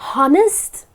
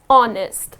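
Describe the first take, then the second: First: The word begins with an audible H sound. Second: The word begins directly with a vowel sound. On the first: The speaker calls it wrong. "That's incorrect" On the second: The speaker calls it right. "You need not pronounce this H here. The correct pronunciation"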